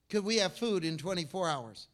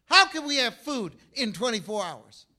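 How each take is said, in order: First: Said in the usual way. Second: Higher, louder disbelieving repeat; acted incredulity; incredulous question. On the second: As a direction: ask it in raised-pitch disbelief, starting hard on "How". Repeats the quoted question, more incredulous.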